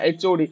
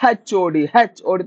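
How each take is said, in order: First: Said in the usual way. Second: ଏଚ୍ ଓ D with an H sounded at the start; mother-tongue slip "hetch" for ଏଚ୍; H named as "hetch". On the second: Shown as a demonstration. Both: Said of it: "ପ୍ରୋନାଉନସିଏସନରେ କୋଉଟା କୋଉଠି ଭୁଲ ହଉଛି".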